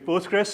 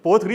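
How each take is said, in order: First: The name ends with an s sound. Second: The name ends without an s sound. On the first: The speaker calls it right. "you either call it Postgres or PostgreSQL" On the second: The speaker calls it wrong. "पोस्टग्री नहीं सही"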